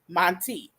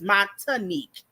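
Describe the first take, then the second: First: The name is said with two syllables. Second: The name is said with three syllables. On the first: The speaker calls it right. "it's clearly Montique" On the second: The speaker calls it wrong. "I add a whole new uh syllable"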